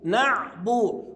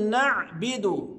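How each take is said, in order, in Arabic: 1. الحركة بعد الباء ضمة. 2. الحركة بعد الباء كسرة. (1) "مضمومة، يبقى أقول نعبو" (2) "بعض الناس ينطقها خطأ"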